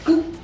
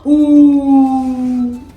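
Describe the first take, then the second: First: The vowel is said short and plain. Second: The vowel is stretched out very long. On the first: The speaker calls it right. "Just oo" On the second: The speaker calls it wrong. "Ooh is like you adding about four or five of the oo"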